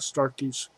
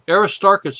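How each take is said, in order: First: The name is said clipped, with syllables dropped. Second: The name is said in full, all syllables. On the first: The speaker calls it wrong. "I call it Astartes. I got a weird pronunciation" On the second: The speaker calls it right. "Let me make sure I I always mispronounce this crater"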